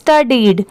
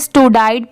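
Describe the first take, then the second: First: The word ends with a 'deed' sound. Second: The word ends with a 'dide' sound. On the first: The speaker calls it right. "But इसकी pronunciation क्या है?" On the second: The speaker calls it wrong. "बहुत सारे लोगों को इसमें भी confusion होता है, इसे स्टूडाइड पढ़ते हैं"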